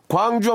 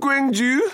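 First: The name is said with a plain Korean vowel. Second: The name is said with an English-style vowel. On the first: The speaker calls it right. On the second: The speaker calls it wrong.

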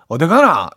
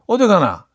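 First: Busan accent, pitch prominence at the end. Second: Daegu accent, pitch prominence at the start.

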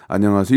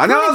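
First: It is said with low, flat energy. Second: It is said with high, lively energy.

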